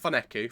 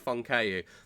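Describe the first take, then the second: First: The name is said as Foneku. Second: The name is said as Fonkeu. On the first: The speaker calls it wrong. "I keep saying his name wrong" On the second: The speaker calls it right. "Fonkeu, not Foneku"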